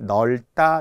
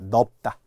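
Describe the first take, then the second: First: The first syllable ends in an l sound. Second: The first syllable ends in a p sound. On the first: This follows the standard rule. The speaker calls it right. "원칙에 의해" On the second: This is a regional dialect form. The speaker calls it wrong. "경상방언, 전라방언은 넓다를 넓다라고 많이 합니다"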